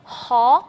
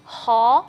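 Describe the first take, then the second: The two takes are said the same way.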